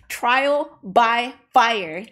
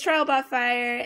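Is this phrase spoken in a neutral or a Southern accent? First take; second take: neutral; Southern. First: It is spoken without a Southern accent. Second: It is spoken with a Southern American accent. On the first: "There you go" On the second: "I did it again. Why do I sound like I have a southern accent when I say that?"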